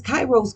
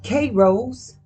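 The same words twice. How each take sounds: First: Kairos with a first syllable like "kai"; first pronunciation. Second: Kairos with a first syllable like "kay"; alternative pronunciation. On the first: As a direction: say Kairos so it opens rhyming with "eye". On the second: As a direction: say Kairos so it opens rhyming with "day". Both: Shown as a demonstration. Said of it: "However you wanna pronounce it".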